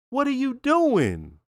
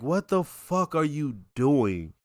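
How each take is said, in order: First: High, slow, exasperated repeat. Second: Slow, quiet, incredulous; exasperated disbelief. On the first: Host repeating his question to Chris, high and exasperated. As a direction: stretch it up in disbelief at Chris. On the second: Host scolding Chris for his dumb move, slow and disbelieving. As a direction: drag it out in disbelief. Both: Retold or imitated. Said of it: "it's like".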